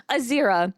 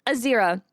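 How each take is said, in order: Both takes have the same delivery.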